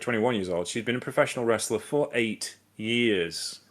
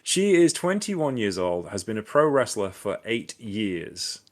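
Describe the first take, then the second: First: It is said at a normal pace without gaps. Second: It is said slowly with pauses between phrases.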